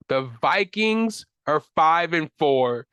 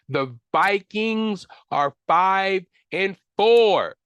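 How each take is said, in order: First: Slow and stressed, "Vikings" leaned on; steady, deliberate statement of the record; slow emphasis. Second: Louder and higher, each word dragged out in disbelief; slow, loud, higher cry of disbelief at the Vikings' record; exasperated outburst. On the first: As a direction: lay out the record slowly and heavily. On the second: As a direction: belt the record out like you can't believe it. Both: Real, not acted. Fan repeats the Vikings' record.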